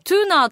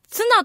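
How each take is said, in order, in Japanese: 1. 長い'tuunaa'、英語風に発音されます。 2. 短い'tsuna'、日本風に発音されます。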